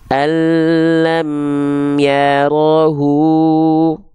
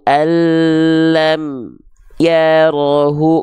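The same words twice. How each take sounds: First: The m flows on briefly into ya. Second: The m is cut off abruptly before ya. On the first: The speaker calls it right. "tapi amnya terus jalan" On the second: The speaker calls it wrong. "nggak boleh"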